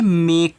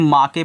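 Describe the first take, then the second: First: It is said as one syllable, 'mayk'. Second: It is said as two syllables, 'maa-ke'. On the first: The speaker calls it right. "ई का pronunciation नहीं किया है तो ये मेक है" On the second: The speaker calls it wrong. "यही होती है बच्चों जो गलती पढ़ते हैं"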